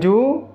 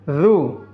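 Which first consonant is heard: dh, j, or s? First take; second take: j; dh. First: The syllable begins with a j sound. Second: The syllable begins with a dh sound. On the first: The speaker calls it wrong. "Jangan ju" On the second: The speaker calls it right. "keluarkan lidahnya sedikit"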